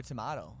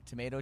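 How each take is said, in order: First: "tomato" as tuh-MAH-toh; "tomato", middle vowel like "father", falling; the other pronunciation. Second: "tomato" as tuh-MAY-toh; "tomato", middle vowel like "day", slight lift; one of two pronunciations. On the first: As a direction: say "tomato" with a broad ah. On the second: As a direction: say "tomato" with a long ay. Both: Shown as a demonstration. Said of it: "we say some weird things".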